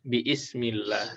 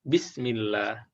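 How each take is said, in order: First: An extra 'i' vowel is sounded before 'smillah'. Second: The word is linked with no extra vowel. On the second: "karena dia wasal ya? Langsung masuk"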